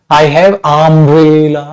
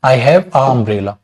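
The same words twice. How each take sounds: First: I have umbrella very slow with have sliding into umbrella; vowels run together. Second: I have a umbrella said slowly with a clear a; wrong article demo. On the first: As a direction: let have blend into umbrella with no break. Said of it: "बोल ही नहीं पाओगे आप". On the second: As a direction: deliberately say a before umbrella. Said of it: "मैंने बोल दिया a umbrella". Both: Shown as a demonstration.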